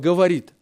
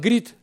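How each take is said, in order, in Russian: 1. Слово произносится полностью, со всеми слогами. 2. Слово сокращено до одного короткого слога. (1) "не выговаривать слово «говорит»" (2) "а «грит»"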